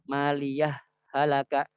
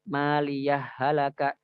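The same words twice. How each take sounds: First: A brief silent stop separates the two words. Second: The final h merges into the next word without pause. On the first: "kalau misalnya kita baca dengan saktah, maka dia enggak boleh di diidghamkan. Maka dia harus dibaca izhar" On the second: "Yang pertama itu dengan idgham"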